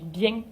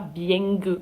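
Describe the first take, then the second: First: It ends in a plain nasal vowel. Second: It ends with an added G sound. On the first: The speaker calls it right. "On dit bien" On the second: The speaker calls it wrong. "pas bien"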